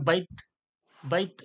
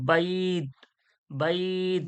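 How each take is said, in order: First: The two final sounds run together quickly. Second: The vowel is held for an extra beat. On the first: The speaker calls it wrong. "যদি ডাইরেক্ট দুটো একসঙ্গে বলেন" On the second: The speaker calls it right. "এক আলিফ ধরে পড়তে হবে"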